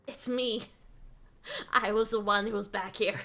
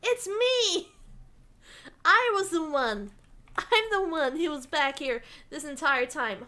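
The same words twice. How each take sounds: First: Restrained, playful retake of a reveal; deadpan playful confession; mock understated reveal. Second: Mock dramatic reveal. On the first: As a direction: reveal yourself coolly, without shouting. Redoes reveal after repositioning, subdued. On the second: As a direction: burst out as the playful surprise culprit. Mock reveal as the background figure.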